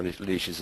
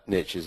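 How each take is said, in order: First: "niche is" said as NEESH-iz; soft sh, no t, in "niche is"; UK pronunciation. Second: "niche is" said as NITCH-iz; short i and a tch sound in "niche is"; American pronunciation. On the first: Host giving the UK version, "niche is" as NEESH-iz. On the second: Host echoing panelist's niche term, "niche is" as NITCH-iz. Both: Shown as a demonstration. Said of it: "as we say in the U K".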